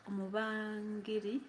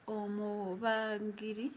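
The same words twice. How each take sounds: The two takes are said the same way.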